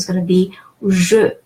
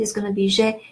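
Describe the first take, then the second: First: "je" said "zhuh", with rounded schwa; final "je" with lips rounded, not é; unaccented E. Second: "je" said "zhay", with a closed é; final "je" pronounced like French "gé"; accented E. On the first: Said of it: "if E doesn't have an accent". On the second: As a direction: say "je" as soft "zh" plus "ay". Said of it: "If it has an accent". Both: Shown as a demonstration.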